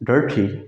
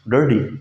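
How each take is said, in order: First: The middle consonant is a clear t sound. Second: The middle consonant sounds like a soft d. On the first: This is the usual non-American reading. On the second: This is how Americans and Canadians say it.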